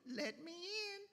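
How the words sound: It is said in a soft, sweet voice.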